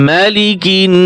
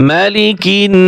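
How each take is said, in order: No difference in how they are said.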